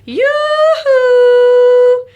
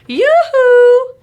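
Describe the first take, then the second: First: Each syllable is held for a second or two. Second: The syllables are short, like a quick call. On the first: "hold each syllable for a second or two" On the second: "like you're trying to get someone's attention"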